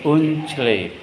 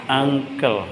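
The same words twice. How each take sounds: First: Uncle read letter by letter as un-chle; spelled as written. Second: Uncle said as ung-kel; proper reading. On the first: Teacher shows how Uncle is written, read as spelt. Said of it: "Tulisannya gimana?". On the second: Teacher shows how Uncle is really read. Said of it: "Bacanya apa?". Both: Shown as a demonstration.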